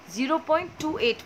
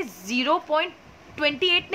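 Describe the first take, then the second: First: zero point टू एट, each digit टू and एट said on its own; right reading. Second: zero point ट्वेंटी एट, with the digits read as one number ट्वेंटी एट; wrong reading. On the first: Teacher showing students the right way, टू and एट digit by digit. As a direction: read टू then एट as separate digits. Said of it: "पढ़ेंगे". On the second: Teacher showing students the wrong way, reading ट्वेंटी एट as one number. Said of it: "नहीं पढ़ेंगे". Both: Shown as a demonstration.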